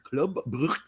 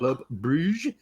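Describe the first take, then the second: First: "Brugge" ending in a throaty Flemish g; Flemish pronunciation. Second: "Brugge" said as "broozh"; French-style pronunciation. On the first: Host naming the Belgian club, "Brugge" in Flemish pronunciation. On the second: Host offering the other club name, "Brugge" said "broozh". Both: Shown as a demonstration. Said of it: "that's in Flemish".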